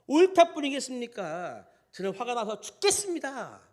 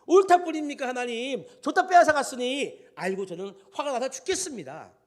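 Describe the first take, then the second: First: High, loud indignant retort; acted anger. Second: Very loud, high outburst, easing at the end; acted outraged protest. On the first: Jonah answering God about the dead vine, acted angry protest. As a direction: answer back hotly, as if wronged. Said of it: "이렇게 화를 내는 것이". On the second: Jonah protesting to God over the vine taken away, louder outraged outburst. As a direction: throw the complaint up at God, heated. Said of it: "우리의 심정을 막 대변하는".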